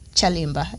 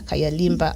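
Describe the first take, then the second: First: The name begins with a 'ch' sound. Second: The name begins with a 'k' sound. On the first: The speaker calls it right. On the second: The speaker calls it wrong.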